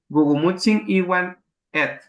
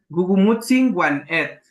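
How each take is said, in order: First: The word is said as 'iwan' with 'i'. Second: The word is said as 'wan' without 'i'. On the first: "yo sí les recomendaría que le pusieran Iwan" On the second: "hay abuelos que dicen"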